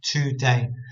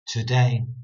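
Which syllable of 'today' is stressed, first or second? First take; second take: first; second. First: The stress is on the first syllable. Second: The stress is on the second syllable. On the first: The speaker calls it right. "When really I should be reading it as today" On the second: The speaker calls it wrong. "I'm still putting the emphasis on the word day"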